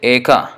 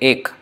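First: The word ends in an extra vowel sound. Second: The word ends on a consonant sound. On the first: This is the Sanskrit pronunciation. "in Sanskrit we say Eka" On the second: This is the Hindi pronunciation. "In Hindi, we say Ek"

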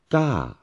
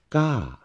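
First: The pitch goes up and then falls. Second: The same.

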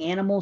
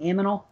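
First: The n sound comes before the m sound. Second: The m sound comes before the n sound. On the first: "Instead of saying animal" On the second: "saying aminal"

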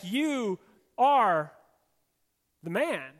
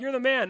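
First: It sounds like a grave, pointed accusation. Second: It sounds like casual, admiring praise.

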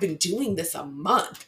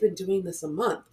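First: It sounds frustrated and complaining, stressing the effort. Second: It sounds calm and matter-of-fact, downplaying the time. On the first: A month feels long enough to expect results. "You see the difference in like the tone of my voice?" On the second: A month is too short to expect results. "to a coach, the mindset is"

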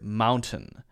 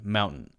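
First: The middle T is clearly released. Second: The middle T is a glottal stop. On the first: "a clear mountain" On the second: "what Americans do in those specific cases"

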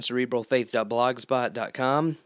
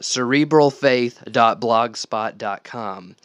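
First: It is said fast. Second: It is said slowly.

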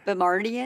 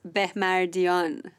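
First: The name is said with an American pronunciation. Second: The name is said in its original pronunciation.

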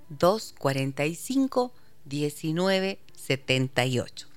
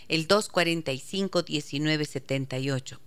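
First: The number is said slowly. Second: The number is said fast.

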